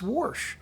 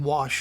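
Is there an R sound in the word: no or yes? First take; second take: yes; no. First: The word is said with an added R sound. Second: The word is said without any R sound. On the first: This is the old local way of saying it. "it wasn't spelled with an R in it. And I thought, wait, but it's Warsh" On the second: This is the way adopted after being teased. "I started saying wash"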